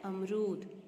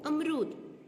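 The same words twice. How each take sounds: First: अमरूद with long oo, "am-rood"; careful model "amrood" for अमरूद; correct pronunciation. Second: अमरूद with short u, "amrud"; wrong pronunciation. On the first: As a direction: say अमरूद lower, stretching the final oo. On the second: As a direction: say अमरूद higher, last vowel short. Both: Shown as a demonstration. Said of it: "क्या होता है?".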